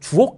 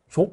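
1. 두 음절은 또렷하게 따로 발음돼요. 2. 두 음절은 빠르게 붙여서 발음돼요. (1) "발음 제대로 해야 되죠" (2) "주옥 말고"

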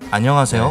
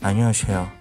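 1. 인사는 그냥 평범하게 말하고, 쉭쉭거리는 소리는 없어요. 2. 인사 내내 쉭쉭거리는 s 같은 소리가 나요. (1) "제가 인사한다면은 안녕하세요" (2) "방장님은 안녕하세요 이런 느낌이거든요"

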